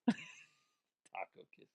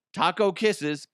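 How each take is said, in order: First: Slow breathy whisper of Taco kisses. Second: Said in the usual way. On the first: Shown as a demonstration. Host repeating the listener's sign-off in a slow whisper. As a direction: savour Taco kisses in a hush.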